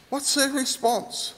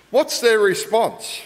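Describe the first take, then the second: First: Softer, higher repeat. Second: Said in the usual way. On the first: Shown as a demonstration. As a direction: ask it again, higher and hushed.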